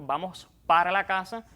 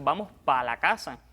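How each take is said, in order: First: The word para is said in full. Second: The word para is shortened to one syllable. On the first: This is the standard form. "en lugar de decir" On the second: This is the casual Cuban form. "eliminamos una sílaba de una palabra"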